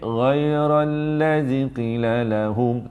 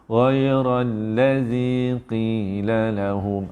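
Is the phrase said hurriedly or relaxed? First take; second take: hurriedly; relaxed. First: It is said fast, with the vowels cut short. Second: It is said relaxed, with the vowels held longer. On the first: "Kalau tuan buat pendek, tu laju" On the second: "relax je"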